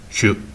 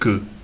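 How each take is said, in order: First: It begins with a palatal tch-like sound. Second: It begins with a plain hard K sound. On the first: This is how the other local group says it. "les gabayes chieux, qui vont prononcer le son que, chieux" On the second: This is how one local group says it. "les gabayes que, et qui vont prononcer que"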